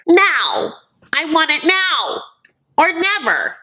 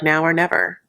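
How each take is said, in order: First: Put-on high, whiny demanding child voice; hammed-up tantrum, much higher pitched; bratty little kid. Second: Said in the usual way. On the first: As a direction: stamp your foot like a spoiled kid who wants it now. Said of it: "He seemed like a little kid".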